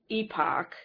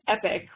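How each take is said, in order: First: The word does not sound like 'epic'. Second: The word sounds just like 'epic'. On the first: "So I've been saying it epoch" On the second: "if you say epic, which is how I would prefer to pronounce it, it sounds too much like EPIC"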